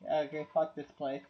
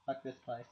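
First: Said in the usual way. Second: Much softer muttered repeat; quiet fed-up mutter. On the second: Real, not acted. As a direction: grumble it under your breath.

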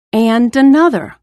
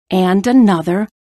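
First: And another said louder and higher; and another with a rising, louder push; building emphasis. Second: Said in the usual way. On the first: A narrator's reading. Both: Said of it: "building list of ropes".

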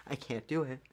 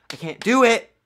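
First: Quiet defeat. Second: "I can't do it" cried out high and loud; exasperated wail. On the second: Gamer giving up on the boss, wailing "I can't do it". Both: Real, not acted. Defeated repeat.

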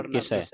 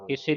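First: ਕਿਸੈ ending in open "ai"; ਕਿਸੈ with the double-lavan vowel; correct reading. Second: ਕਿਸੇ ending in narrow "e"; ਕਿਸੇ with a single-lavan ending; wrong reading. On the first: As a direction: say ਕਿਸੈ as "kisai", falling. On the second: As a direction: say ਕਿਸੇ as "kise". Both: Shown as a demonstration. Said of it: "ਨਹੀਂ ਪੜ੍ਹਨਾ".

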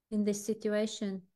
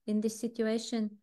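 Both takes have the same delivery.

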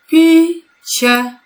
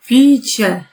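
First: Picie split into pi-cie, the syllables pulled apart and pitched up. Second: Said in the usual way. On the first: Shown as a demonstration. Teacher splitting the word for pupils, syllable by syllable. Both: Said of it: "Dzielimy na sylaby".

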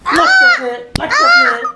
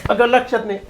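First: Squeaky high mocking echo of her words; mocking mimicry. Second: Said in the usual way. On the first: Husband mimicking his wife's excuse in a shrill mocking voice. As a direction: parrot her back in a silly high voice.

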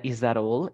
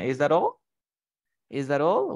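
First: Said in the usual way. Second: Pointed, unkind question with a rise; mock sneer. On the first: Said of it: "he said". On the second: Shown as a demonstration. Teacher acting out an unkind remark to Raul, sneering. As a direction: ask it to needle, with mild sarcasm. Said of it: "in an unkind way".

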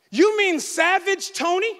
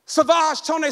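First: "Savage Tony" said with a clear final "Tony", rising; "Savage" as SAV-idge, "Tony" with a long ee ending; correct name. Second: "Savage Tone" said sa-VAHZH, "Tone" clipped; "Savage" French-style sa-VAHZH, "Tone" without the ee; wrong name. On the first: Retold or imitated. The pastor correcting his wife, "Savage Tony" said rightly. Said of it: "I said to her". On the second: Shown as a demonstration. The pastor repeating his wife's misreading, "Savage Tone" said sa-VAHZH. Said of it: "repeats wrong name".

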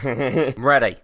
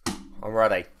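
First: Laughing. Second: Softer, lower take of I'm ready; quieter, settling in. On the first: Gearing up for the emotional video, laughing. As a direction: laugh through the words I'm ready. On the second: Preparing himself to cry on camera, quieter and lower. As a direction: say it again, quietly, bracing yourself. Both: Real, not acted.

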